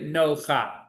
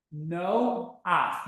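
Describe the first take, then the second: First: "no cha" with the cha sound together at the end; teacher shows the wrong way. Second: "no ach" in two beats, a before ch; right no ach. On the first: Hebrew teacher to class, demonstrating a mistake. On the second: Hebrew teacher to class, correct split reading. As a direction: sound out "no" then "ach". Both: Shown as a demonstration. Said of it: "We wouldn't read it no cha".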